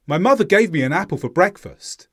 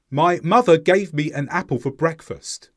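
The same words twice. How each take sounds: First: Quick, with small words weakened and linked; faster connected speech. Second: Each word kept separate and fully sounded; slower careful reading. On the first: Teacher demonstrates the faster way to learners, quick and connected. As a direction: run the words together swiftly. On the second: Teacher demonstrates the slower way to learners, slower and careful. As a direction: say it unhurried, word by word. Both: Shown as a demonstration. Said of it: "The second way was faster".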